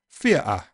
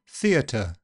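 First: The t is replaced by a glottal stop. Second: The t is a clear, slightly aspirated t. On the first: "if you say theatre in Cockney, you'll get a glottal stop" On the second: "in RP, you'll get an alveolar t with possibly a little bit of aspiration"

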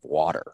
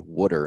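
First: The word is said in a neutral accent. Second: The word is said in a Philadelphia accent. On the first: The speaker calls it right. "instead of water" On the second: The speaker calls it wrong. "when people from Philadelphia say water"

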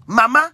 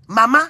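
The two takes are said the same way.

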